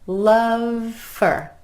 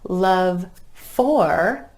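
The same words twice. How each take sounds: First: The word for is reduced to fur. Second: The word for is said in full.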